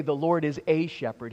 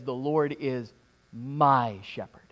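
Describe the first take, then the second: First: Said in the usual way. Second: "my" leaned on, slow and soft; stress on my. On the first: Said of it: "David doesn't say". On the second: Shown as a demonstration. Preacher contrasts wording for congregation, slow with weight on "my". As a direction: press the word "my" gently, slowly. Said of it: "He says".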